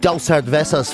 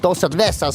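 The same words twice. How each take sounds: First: It is said with a plain English accent. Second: It is said with a Spanish accent. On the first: The speaker calls it wrong. "you can't just say" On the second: The speaker calls it right. "It has to be you know"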